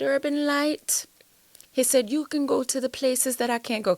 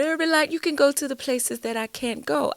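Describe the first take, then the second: First: Put-on pastor's Trinidadian accent, lightly done. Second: Put-on Trinidad accent, a bit higher and more sung. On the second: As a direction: imitate the pastor in a Trinidad lilt. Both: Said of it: "that's my Trinidad, um, accent".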